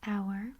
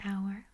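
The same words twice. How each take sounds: First: It sounds like the word 'hour'. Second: It sounds like the word 'hour'.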